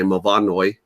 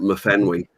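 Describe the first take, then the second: First: The name is said with a Welsh pronunciation. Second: The name is said with an English pronunciation. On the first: "if you were Welsh, you'd say" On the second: "the English people call it"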